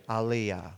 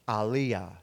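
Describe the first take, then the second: First: The name has a Hebrew pronunciation. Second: The same.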